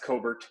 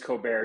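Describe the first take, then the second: First: The name is said the plain, unfancy way. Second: The name is said the fancy, European-sounding way. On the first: The speaker calls it right. "It's Cobert. It's not that cool" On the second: The speaker calls it wrong. "I wish my name was Colbert. It's not"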